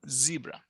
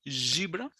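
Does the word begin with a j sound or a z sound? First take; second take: z sound; j sound. First: It begins with a buzzing z sound. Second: It begins with a j sound. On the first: The speaker calls it right. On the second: The speaker calls it wrong.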